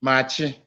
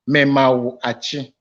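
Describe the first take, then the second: First: The greeting is squeezed into two syllables. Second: Every syllable of the greeting is pronounced separately. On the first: "let me give you the short form of it" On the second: "For the good morning, Memawu Achi"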